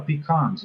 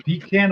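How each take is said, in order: First: "pecans" said pee-KAHNZ, A as in father; "pecans" ending in KAHNZ; pee-KAHN pronunciation. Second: "Pecan" said pee-KAN, A as in cat; "Pecan" ending just like can; pee-CAN pronunciation. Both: Shown as a demonstration. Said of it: "It's pecans".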